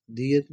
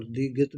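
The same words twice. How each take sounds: First: دیت as two gliding syllables, di-yet, without a g; the g-less pronunciation دیت, di-yet; variant letter name. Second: دیگت as di-get, a hard g opening the second syllable; the pronunciation دیگت with an audible middle g; variant letter name. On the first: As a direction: say دیت with no g in the middle. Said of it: "دیت بھی بولتے ہیں". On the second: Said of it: "اور دیگت بھی بولتے ہیں". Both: Shown as a demonstration.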